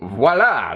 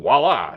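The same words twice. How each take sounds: First: It is said in an exaggerated French accent. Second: It is said in a plain American accent. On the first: The speaker calls it right. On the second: The speaker calls it wrong.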